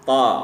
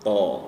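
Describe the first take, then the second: First: The vowel is flat, sounding like a. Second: The vowel is rounded, sounding like o. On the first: The speaker calls it right. "Jadi ini diusahakan tetap datar" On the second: The speaker calls it wrong. "bukan o, membentuk o gitu"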